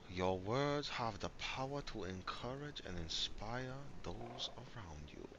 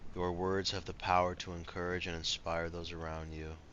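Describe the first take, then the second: First: It is read in a put-on accent. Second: It is read in his normal voice.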